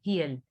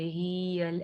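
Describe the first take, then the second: First: The first vowel is kept short. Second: The first vowel is stretched out long. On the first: The speaker calls it right. "ठीक है" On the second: The speaker calls it wrong. "ऐसे नहीं"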